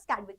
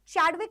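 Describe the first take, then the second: First: The name begins with a k sound. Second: The name begins with a ch sound. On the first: The speaker calls it right. "इनका नाम का pronunciation है स्कैडविक" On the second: The speaker calls it wrong. "चैडविक उसको मतलब नहीं बोलते हैं"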